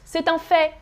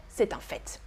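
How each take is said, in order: First: No T at the end of FAIT; FAIT with silent T. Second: Softer, lower FAIT closed on a T; FAIT with sounded T. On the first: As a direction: say FAIT as "fay". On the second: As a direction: say FAIT as "fett". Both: Shown as a demonstration. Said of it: "both are correct".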